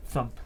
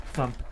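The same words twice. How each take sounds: The two takes are said the same way.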